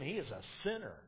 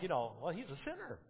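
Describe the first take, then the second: First: It is said with a disgusted, condemning tone. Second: It is said in a plain, neutral tone. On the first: The speaker looks down on the man. "They were disgusted" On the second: The speaker simply states a fact. "It wasn't like"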